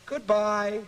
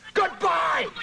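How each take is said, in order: First: It is said calmly and nicely, falling. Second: It is said strongly, with force.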